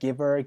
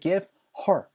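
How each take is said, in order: First: The words link together, with h dropped. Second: The two words are separate, with h pronounced. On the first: The speaker calls it right. "사운드로 연결되겠죠" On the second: The speaker calls it wrong. "give her 보다는요"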